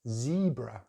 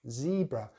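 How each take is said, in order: First: The first vowel is a long E, American-style. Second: The first vowel is a long E, American-style.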